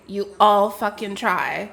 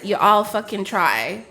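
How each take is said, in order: First: Each word of You all fucking try laid down slowly, stress on all; drawn-out You all fucking try with a rise on all; slow emphatic repeat. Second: Said in the usual way. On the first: Shown as a demonstration. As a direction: repeat it slower, hammering all.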